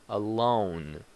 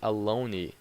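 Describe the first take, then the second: First: The word ends cleanly on the consonant sound. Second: The word ends with an added vowel sound. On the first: The speaker calls it right. "The word ends with the consonant sound" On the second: The speaker calls it wrong. "You don't say"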